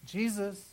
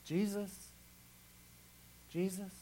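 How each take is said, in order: First: Said in the usual way. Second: Softer and softer, trailing off; fading call. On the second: Acted. Pastor softly repeating the name Jesus in trouble, fading. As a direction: let the name fade to a murmur.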